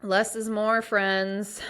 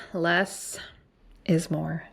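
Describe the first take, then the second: First: Said in the usual way. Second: Less held on a rise, then a pause before is more; spaced out, Less rising, a beat, then is more; stress on each word. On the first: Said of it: "repeated as a slogan". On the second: Shown as a demonstration. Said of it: "slogan said again, slower".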